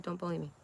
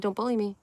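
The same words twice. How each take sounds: First: "Don't bully me" said much softer, almost under the breath; softer repeat. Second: Said in the usual way. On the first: Retold or imitated. Streamer quietly repeats her plea to chat, much softer. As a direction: drop the volume right down on "Don't bully me". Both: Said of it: "I just said".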